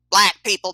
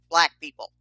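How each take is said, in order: First: Louder, higher insistent repeat; exasperated repeat. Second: Said in the usual way. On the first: Acted. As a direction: repeat it with more force, exasperated.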